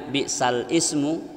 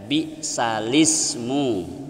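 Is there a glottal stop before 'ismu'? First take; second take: yes; no. First: A glottal stop separates the two words. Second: The words run together without a glottal stop. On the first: This is how it is originally written. "tulisan aslinya bi'sal ismu" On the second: This is how it is recited. "tapi dibaca bi'salismu"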